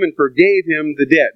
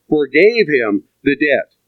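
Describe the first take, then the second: First: Said in the usual way. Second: Forgave him the debt, slow, weight on forgave; emphasized phrase. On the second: Shown as a demonstration. Preacher pointing the congregation to Forgave him the debt, slowly. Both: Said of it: "Notice that expression".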